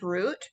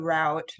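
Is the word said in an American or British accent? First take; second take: British; American. First: The word is said in a British accent. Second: The word is said in an American accent. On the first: "We don't say escape route" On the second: "in America we say route"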